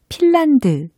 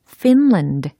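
First: The word begins with a p sound. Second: The word begins with an f sound. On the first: The speaker calls it wrong. "우리가 핀란드 이렇게 쉽게 이야기를 하는데" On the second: The speaker calls it right. "영어적으로는 이겁니다"

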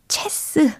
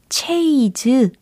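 First: It has a short e vowel and ends in s. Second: It has an ay vowel and ends in z. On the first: "체스 아니고요" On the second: "체이즈 아니고요"

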